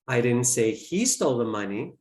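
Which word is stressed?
he. The word 'he' is stressed. Someone else took it. "I implied that someone else did"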